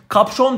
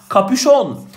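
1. p ile ş arasında hiçbir ünlü duyulmuyor. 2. p ile ş arasında bir ünlü duyuluyor. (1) "Kapşon dediğimiz" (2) "Kapüşon, aman dikkat"

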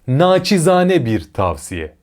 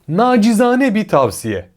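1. İlk kelimede sessiz 'ç' sesi var. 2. İlk kelimede sesli 'c' sesi var. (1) "Doğru" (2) "Yanlış"

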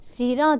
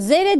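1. Ünlüler önce bir i, sonra bir a. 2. Her iki ünlü de e sesidir. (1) "zira diye yazarız" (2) "zere deriz"

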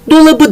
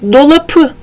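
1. Son ünlüden önceki ünsüz b'dir. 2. Son ünlüden önceki ünsüz p'dir. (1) "dolabı deriz. Yumuşamış" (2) "P sert ünsüzü dolapı demeyiz"

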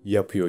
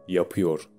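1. Kelimenin sonu yutuluyor. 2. Kelime tam olarak telaffuz ediliyor.

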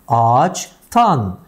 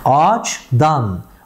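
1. Ek sert bir t sesiyle başlar. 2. Ek yumuşak bir d sesiyle başlar. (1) "T'ye dönüştü" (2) "Dikkat ederseniz D ne oldu?"

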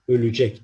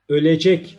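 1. Ortadaki sesli harf daralarak kapalı bir sesli harfe dönüşmüştür. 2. Ortadaki sesli harf tam, açık bir sesli harftir. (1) "okurken harf daralması kuralı gereği ölecek deriz" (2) "ölecek şeklinde yazılır"

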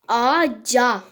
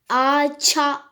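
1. Ekten önceki ünsüz yumuşak bir c. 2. Ekten önceki ünsüz sert bir ç. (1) "C'ye dönüşmüş" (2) "Ağaça demeyiz değil mi?"

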